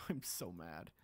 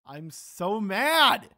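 First: Whispered, soft defeated grumble; muttered under breath. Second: Louder, slow drawn-out fury; frustrated outburst. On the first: Gamer grumbling to himself about lost sword, whispered. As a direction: breathe it out almost silently. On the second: Gamer yelling at viewers over lost sword, slow and loud. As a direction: let it burst out, stretching each word. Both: Real, not acted.

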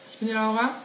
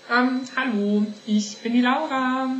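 First: Said in the usual way. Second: Higher, louder, slow showy hello; big cheerful greeting. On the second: Acted. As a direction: announce yourself like a TV host. Redoes her introduction.

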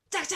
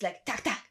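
First: "tack, tack" said higher and sharper; higher imitated cut sound. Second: Short clicking "tack, tack"; imitated cut sound. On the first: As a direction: snap "tack, tack" up high like sharp cuts. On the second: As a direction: tap out "tack, tack" like quick film cuts. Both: Shown as a demonstration. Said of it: "Very short".

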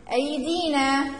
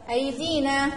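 First: أيدينا said slowly, holding the long i sounds; stretched long vowels. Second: Said in the usual way. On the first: Shown as a demonstration. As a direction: draw out each long vowel of أيدينا for the class. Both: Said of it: "كلمة بها حركة طويلة".

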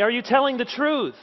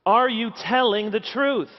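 First: "truth" pushed high and strong at the end, falling off; stress on TRUTH. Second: "Are" hit first and hardest, then falling to the end; stress on ARE. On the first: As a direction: build the question to land on "truth". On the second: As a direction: lean hard on the word "Are", then let the rest drop. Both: Shown as a demonstration. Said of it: "one question that towers above all others".

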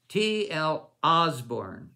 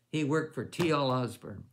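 First: "T L Osborne" slow and louder, each letter of "T L" spaced out; triumphant recall. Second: Said in the usual way. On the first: Real, not acted. Preacher finally remembering the ministry name, slow loud "T L Osborne". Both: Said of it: "there it is".

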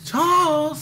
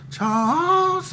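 First: High call, the name stretched out; calling a child home from far away; eerie high summons; old-time calling voice. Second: High, drawn-out call of a name; eerie high summons of a child's name; old-time calling voice. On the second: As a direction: call the name like a ghostly mother from afar. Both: Retold or imitated. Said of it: "that old time voice".

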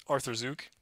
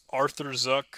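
First: Softer "Arthur Zook" with long oo in "Zook"; retry "Arthur Zook" quietly, long final vowel; doubtful second guess. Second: "Arthur Zuck" with short u in "Zuck"; first-guess pronunciation. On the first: Host doubting a supporter's name, quiet alternative pronunciation. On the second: Host attempting a supporter's name, first-guess pronunciation. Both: Real, not acted. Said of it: "this is bad".

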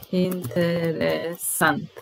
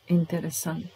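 First: Drawn out, syllable by syllable; careful slow pronunciation; slow model word. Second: Said in the usual way. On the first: Shown as a demonstration. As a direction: stretch it so learners hear each part. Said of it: "teacher models word slowly". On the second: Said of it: "teacher repeats word".

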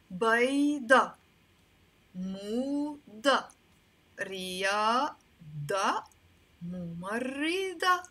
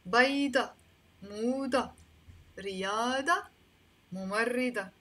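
First: بيضة، موضة، رياضة، ممرضة stretched out, ending in a firm "dah"; teacher modelling بيضة، موضة، رياضة، ممرضة with long vowels and "ah" endings; final "a" sound. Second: بيضة، موضة، رياضة، ممرضة at normal length, ending in "dah"; final "a" sound. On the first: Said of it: "All of them are finishing with the a sound". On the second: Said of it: "you can pronounce them as a". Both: Shown as a demonstration.

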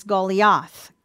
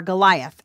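First: "Goliath" said as GOH-lee-ath; original-name pronunciation. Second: "Goliath" said as guh-LIE-uth; English pronunciation. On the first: Teacher giving the star's name, Goliath pronounced GOH-lee-ath. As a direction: say "Goliath" with a long GOH and an ee in the middle. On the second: Teacher translating the star's name, Goliath pronounced guh-LIE-uth. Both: Shown as a demonstration. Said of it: "as we would say it".

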